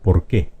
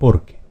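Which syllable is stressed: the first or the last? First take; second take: last; first. First: The stress is on the last syllable. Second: The stress is on the first syllable. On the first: It is a noun meaning a reason. "Esta que es una palabra aguda se pronuncia" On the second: It introduces an explanation. "Porque es una palabra grave"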